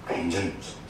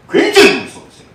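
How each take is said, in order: First: 굉장히 said low and much softer; preacher quietly letting the fear sink in; hushed. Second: 굉장히 much higher and louder, falling away; preacher stressing how fearsome God is; emphatic. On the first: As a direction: drop to a low, soft, ominous murmur. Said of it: "hushed repeat". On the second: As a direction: burst out on 굉장히 then drop. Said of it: "emphatic warning". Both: Shown as a demonstration.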